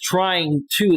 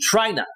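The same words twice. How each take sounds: First: Both words are said fully and separately. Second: The words are squeezed together into one reduced word. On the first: "They don't say is the ex trying to" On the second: "They say trying to. T R Y N A"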